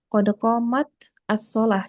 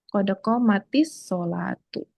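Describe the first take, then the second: First: The words are read apart, without a linking vowel. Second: The words are joined with a linking 'i' vowel. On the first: "Kalau misalnya mau dibaca terpisah" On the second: "karena disambung kan kita bacanya"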